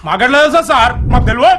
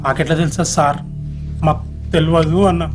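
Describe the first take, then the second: First: It is said angrily with a deep voice. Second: It is said timidly without anger or depth.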